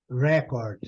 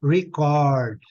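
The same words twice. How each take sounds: First: Record as a noun, REC stressed, second syllable weaker; stress on first syllable. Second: Record as a verb, second syllable punched louder; stress on last syllable. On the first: Teacher shows students the noun, Record stressed up front. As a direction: say Record falling away after a strong first syllable. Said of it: "Quando ela é substantivo ... é a primeira". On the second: Teacher shows students the verb, Record stressed on the end. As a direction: say Record with a weak first syllable, strong CORD. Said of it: "Quando ela é verbo ... sílaba forte é a última".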